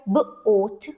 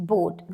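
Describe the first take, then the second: First: "boat" split into b and oat; sounding out. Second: Said in the usual way. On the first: Shown as a demonstration. Teacher showing a one syllable word, "boat" sounded out. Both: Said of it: "This is a one syllable word".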